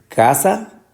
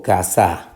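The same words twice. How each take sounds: First: "casa" with the CA stretched and stressed; stress on first syllable. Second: "casa" said as ca-SÁ, slowly; stress on last syllable. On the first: Teacher asking which syllable is tonic, stressing CA in "casa". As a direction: lean hard on the CA of "casa". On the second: Teacher offering the wrong option, stressing the final SA of "casa". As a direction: shift the weight of "casa" onto the final SA. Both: Shown as a demonstration. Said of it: "la fuerza de pronunciación o la sílaba tónica".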